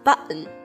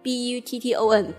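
First: The t is swallowed into a glottal catch. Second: The t is clearly pronounced in the middle.

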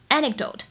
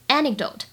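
First: The k sound before the d is silent. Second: The k sound before the d is silent.

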